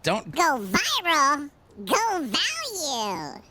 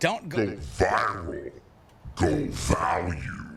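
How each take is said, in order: First: It is said in a plain, flat voice. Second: It is said in a dramatic announcer voice.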